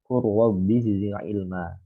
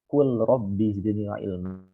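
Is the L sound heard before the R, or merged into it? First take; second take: merged; heard. First: The L merges into the following R sound. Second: The L is pronounced clearly before the R. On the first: The speaker calls it right. "diidghamkan sama sama huruf ro" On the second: The speaker calls it wrong. "Jangan dibaca"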